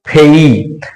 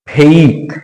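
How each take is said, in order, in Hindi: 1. स्वर 'e' से 'ee' की ओर फिसलता है। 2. स्वर 'e' से 'ee' की ओर फिसलता है।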